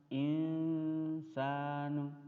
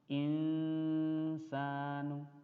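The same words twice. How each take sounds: First: The n sound is faint and nasalized. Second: The same.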